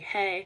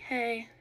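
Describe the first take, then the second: First: It is shouted loudly. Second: It is said quietly, not shouted.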